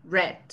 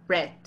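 Both takes have the same delivery.

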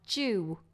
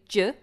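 First: The vowel has a clear rounded w-like glide. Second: The vowel has no rounded w-like glide. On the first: The speaker calls it right. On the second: The speaker calls it wrong. "Now you're doing ju"

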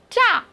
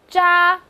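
First: The pitch falls sharply from high to low. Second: The pitch stays high and level.

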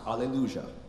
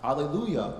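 First: It is said with an Argentinian pronunciation. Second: It is said with a standard pronunciation.

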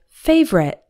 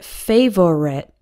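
First: The word is said with two syllables. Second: The word is said with three syllables. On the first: The speaker calls it right. "we say it more like favorite with two syllables" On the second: The speaker calls it wrong. "We don't pronounce it fav-o-rit with three syllables"

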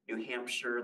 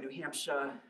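First: The final r sound is clearly pronounced. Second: The final r sound is dropped.

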